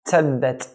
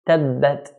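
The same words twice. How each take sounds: First: The t has a hissing s-like release. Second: The t is crisp with no hissing release. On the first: The speaker calls it wrong. "not like how some people pronounce the ta" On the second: The speaker calls it right. "Ta is pronounced when the tip of the tongue touches the gum line"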